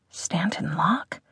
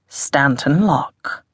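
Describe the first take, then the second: First: Soft, slow, rising question; hushed wondering question. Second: Slow posh English self-introduction; posh English accent. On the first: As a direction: echo the name under your breath, questioning. Hiss wonders at the name. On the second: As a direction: announce the name in posh English, slowly. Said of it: "in a posh English accent". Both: A narrator's reading.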